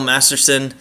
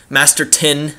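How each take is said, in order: First: The last syllable starts with an s sound. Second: The last syllable starts with a t sound. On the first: The speaker calls it wrong. "I've probably been saying Masterson the whole time" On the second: The speaker calls it right. "It's Masterton"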